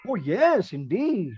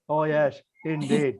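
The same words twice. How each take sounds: First: It is said lively, with a smile. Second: It is said flat, without expression.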